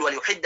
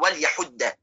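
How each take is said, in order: First: وليحد said as wa-l-yuhid, ya with u; وليحد with the ya voiced as yu; with damma on ya. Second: وليحد said as wa-l-yahudda, ya with a; وليحد with the ya voiced as ya; with fatha on ya. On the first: (وليحد بضم الياء) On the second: (وليحد بفتح الياء) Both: Shown as a demonstration. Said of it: "بضم الياء من حد السكين وبفتحها".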